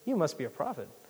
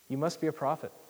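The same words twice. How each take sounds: First: It is said in a mocking, sarcastic tone. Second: It is read in a plain, neutral tone.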